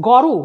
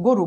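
First: গরু with open "aw" first vowel; as written. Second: গরু with closed "o" first vowel; pronounced with O. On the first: Teacher reading out the spelling, গরু with open aw. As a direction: say গরু as "gaw-ru". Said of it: "আমরা লিখি গরু". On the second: Teacher giving the spoken form, গরু with closed o. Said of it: "গয়ে ওকার দিয়ে". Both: Shown as a demonstration.

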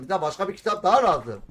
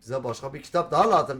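First: The same line said again, louder and higher; emphatic louder repeat. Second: Said in the usual way. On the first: Shown as a demonstration. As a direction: push it out with more force.

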